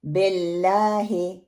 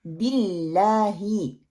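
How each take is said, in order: First: बिल्लाही said as BELLAAHE, spread E vowels; majhool mistake. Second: बिल्लाही as BILLAAHI, pure short I vowels; slow, long LAA, crisp I at both ends of बिल्लाही; correct pronunciation. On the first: Teacher showing learners the spread-vowel mistake, BELLAAHE. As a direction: turn both I vowels of बिल्लाही into E. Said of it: "बे को मोटा करके फैला के पढ़ते हैं". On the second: Teacher giving learners the correct BILLAAHI, slowly. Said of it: "ये दुरुस्त pronunciation है". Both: Shown as a demonstration.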